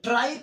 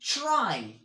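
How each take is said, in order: First: The word starts with a plain tr sound. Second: The word starts with a ch-like sound. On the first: The speaker calls it wrong. "ट्राई करूंगा तो that's wrong" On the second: The speaker calls it right. "मैं चा का आवाज देता हूं"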